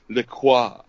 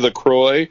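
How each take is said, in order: First: The name is said the way hipsters say it. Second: The name is said the plain, ordinary way. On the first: "like the hipsters pronounce LaCroix" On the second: "Do you pronounce it DC LaCroix"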